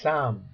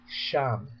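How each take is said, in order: First: The word begins with an s sound. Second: The word begins with an sh sound. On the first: The speaker calls it right. "The correct reading of this verb would be sam" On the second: The speaker calls it wrong. "not sham"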